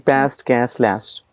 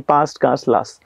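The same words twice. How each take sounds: First: It is said in an American accent. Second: It is said in a British accent.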